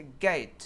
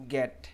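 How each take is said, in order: First: "गेट" with long e gliding into i; correct "ei" diphthong. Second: "गेट" with short flat e, like "get"; wrong non-native vowel. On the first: Teacher correcting learners, "गेट" with a full ei glide. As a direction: stretch "गेट" into "geh-eet". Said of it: "correctly कैसे pronounce करना है". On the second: Teacher showing learners' mistake, "गेट" as short "get". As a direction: cut the glide from "गेट", say "get". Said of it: "इसको wrongly कैसे pronounce करते हैं". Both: Shown as a demonstration.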